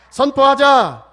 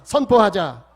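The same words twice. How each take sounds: First: 선포하자 shouted much louder, pitch lifted; rally the room, ringing out 선포하자; shouted declaration. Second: 선포하자 called out firmly and loudly; loud call to declare. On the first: Pastor rousing the congregation to repeat, 선포하자 shouted at full force. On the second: Pastor leading the congregation in repeating, 선포하자 called out loud. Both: Shown as a demonstration. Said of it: "따라서 합시다".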